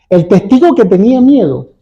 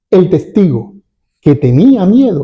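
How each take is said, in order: First: It is said straight through without pauses. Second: Pauses set off the phrase 'que tenía miedo'. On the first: Only the frightened witness among several refused to testify. "Sin comas especifica" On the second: The witness refused to testify because he was afraid. "si yo coloco las comas, mi entonación va a cambiar"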